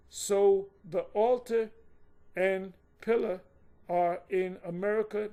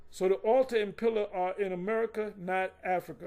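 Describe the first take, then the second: First: Slow and deliberate, broken by pauses; slow, emphatic re-reading. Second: Said in the usual way. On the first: Shown as a demonstration. Teacher re-reading the point to listeners, slow and emphatic. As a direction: spell it out phrase by phrase, loud on "altar". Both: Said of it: "Let me read that again".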